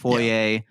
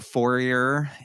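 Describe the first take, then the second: First: The word ends without an 'er' sound. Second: The word ends with a clear 'er' sound.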